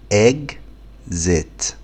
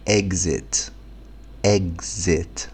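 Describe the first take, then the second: First: إكزيت stretched very slowly, eg-zet; slow spelled-out exit. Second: Said in the usual way. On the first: Shown as a demonstration. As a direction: drag out each sound of إكزيت. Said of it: "تاني". (نطق بطيء جدًا لإكزيت)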